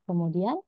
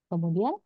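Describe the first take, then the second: No difference in how they are said.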